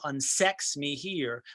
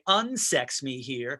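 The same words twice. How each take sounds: First: The stress falls on the second syllable, sex. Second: The stress falls heavily on the first syllable, un. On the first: It follows the regular verse rhythm. "the iambic rhythm goes to" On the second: It works against the verse rhythm, so it rings out more. "she put a really heavy stress on that un"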